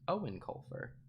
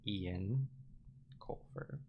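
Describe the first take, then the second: First: The first name sounds like Owen. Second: The first name sounds like Ian. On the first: The speaker calls it right. "Not like it's spelled, but simply Owen" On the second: The speaker calls it wrong. "I have no idea how to pronounce that. I'm gonna go Ian Coulter"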